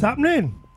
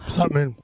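First: It is said loudly, with lots of energy. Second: It is said flatly, with little energy.

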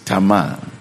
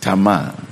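First: The name is said the Hebrew way. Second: The name is said the Hebrew way.

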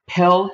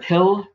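First: The vowel is said the Pittsburgh way. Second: The vowel is said the standard way. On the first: "I still sound Pittsburgh. One of them is the I and the E" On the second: "instead of"

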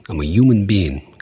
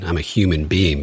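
First: The H at the start of human is dropped. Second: The H at the start of human is pronounced. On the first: "they say human. They just completely drop the H" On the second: "I say human"

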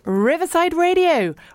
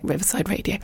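First: The phrase is said in an over-the-top way. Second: The phrase is said in a gentle way. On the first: "You don't have to say it like that" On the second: "You can just say it nicely like"

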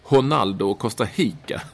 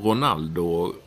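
First: The R sounds are Brazilian-style H sounds. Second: The R sounds are Swedish-style R sounds.

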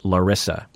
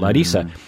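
First: The name is said the American way. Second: The name is said the Brazilian way.

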